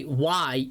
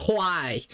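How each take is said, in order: First: Said in the usual way. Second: "why" as "hwhy", a puff of h before the w; breathy hw in why. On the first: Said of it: "Like, I say why". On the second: Retold or imitated. Mimicking the actor's posh "why", breathy hw. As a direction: blow air out before the w in "why". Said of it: "he says his W's".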